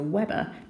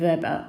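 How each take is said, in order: First: The word begins with a W sound. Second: The word begins with a V sound. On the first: "as opposed to Weber" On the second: "I'm calling it Weber ... the W is pronounced like a V"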